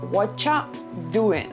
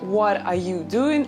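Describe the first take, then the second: First: The words are reduced and run together. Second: Every word is said fully and separately. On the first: "it becomes in what ya doing" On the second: "Instead of what are you doing"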